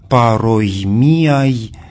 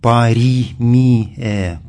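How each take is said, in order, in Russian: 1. Внутри есть 'oi', а заканчивается на 'ai'. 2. Внутри есть 'i', а заканчивается на 'e'. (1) "в древнем классическом чтении звучит как" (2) "в византийском более позднем чтении"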